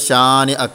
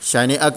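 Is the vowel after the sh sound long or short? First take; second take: long; short. First: The vowel after sh is long. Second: The vowel after sh is short. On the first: The speaker calls it right. "ഷീനെയാണ് അവിടെ നീട്ടി ഓതിയത്" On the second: The speaker calls it wrong. "ഷനി അക്ക എന്നല്ല പറഞ്ഞത്"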